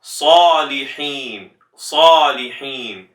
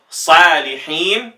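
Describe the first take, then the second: First: Salihin slow with a breathy throat ḥ; correct Salihin. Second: Salihin slow with a light h; wrong Salihin. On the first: Teacher showing the correct form. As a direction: give Salihin with the proper ḥ. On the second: Teacher showing the mistaken form. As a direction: show the careless Salihin. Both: Shown as a demonstration.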